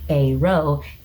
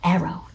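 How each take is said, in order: First: It begins like the first syllable of aromantic. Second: It sounds like the ordinary word arrow. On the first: The speaker calls it right. "Like aromantic" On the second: The speaker calls it wrong. "not arrow, duh"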